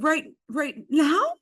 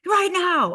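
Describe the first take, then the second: First: Slow, high, rising disbelief; stunned question. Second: High, loud, falling command; insistent order. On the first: Stunned host checks the designer's order, slow and incredulous. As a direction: ask it haltingly, voice climbing at the end. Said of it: "I was so stunned". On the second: Designer answers the stunned host, loud and insistent. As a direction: fire it back as a firm demand. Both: Retold or imitated.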